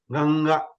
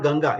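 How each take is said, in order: First: "Ganga" with the ng from throat and nose; nasal ng. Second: Said in the usual way. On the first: Shown as a demonstration. Teacher correcting simple reading, nasal held ng in "Ganga". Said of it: "sound will come from the nose also". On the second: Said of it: "But it's not Ganga".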